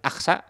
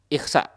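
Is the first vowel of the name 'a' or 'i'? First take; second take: a; i. First: The name begins with an open 'a' vowel. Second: The name begins with an 'i' vowel. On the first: "Boleh dibaca fathah dengan Aqsa" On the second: "atau boleh dibaca kasroh"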